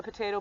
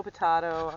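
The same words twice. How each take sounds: First: Potato said as pə-TAY-toe, long A; potato with the American AY vowel; potayto. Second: Potato said as pə-TAH-toe, broad A; potato with the ah vowel, British style; potahto. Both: Shown as a demonstration. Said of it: "people would say it different".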